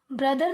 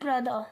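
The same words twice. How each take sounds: First: ब्रदर with the final r pronounced, brudhur; ब्रदर ending in a clear r; wrong, r sounded. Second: ब्रदर ending on uh with no r, brudhuh; ब्रदर said without its final r; right, silent r. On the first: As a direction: sound the r at the end of ब्रदर as the mistake. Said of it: "ब्रदर नहीं बोलेंगे". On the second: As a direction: drop the r in ब्रदर, just brudhuh. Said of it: "सिर्फ ब्रदर". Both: Shown as a demonstration.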